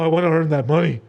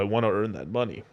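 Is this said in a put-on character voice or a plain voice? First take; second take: plain; character voice. First: It is said in a plain, unchanged voice. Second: It is said in a put-on character voice. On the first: The speaker calls it wrong. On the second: The speaker calls it right.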